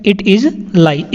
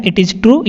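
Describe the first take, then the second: First: "It is lie" drawn out word by word; slow it down for the class; slow clear repetition. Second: Said in the usual way. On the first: Shown as a demonstration. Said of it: "teacher repeats sentence slowly". (धीरे-धीरे साफ़ उच्चारण) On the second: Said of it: "teacher repeats sentence".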